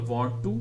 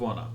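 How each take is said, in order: First: The two words are said fully and separately. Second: The two words are run together into one. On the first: "native speakers हर word अलग नहीं बोलते" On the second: "words को connect करते हैं"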